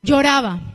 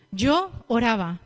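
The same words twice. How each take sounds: First: "Lloraba" said loud with a clear ll sound as in crying; "Lloraba" punched loud, ll like y. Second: "Yo oraba" split slowly into two words; slow "Yo... oraba", a separate yo before oraba. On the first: Preacher plays on wordplay, stressing "Lloraba" loudly. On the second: Preacher separates "Yo oraba" from lloraba, slowly. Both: Shown as a demonstration.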